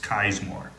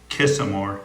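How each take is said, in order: First: The name has no extra middle syllable. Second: The name has an extra middle syllable. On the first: The speaker calls it right. "That's how he pronounces his name" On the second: The speaker calls it wrong. "It's not Kissamore"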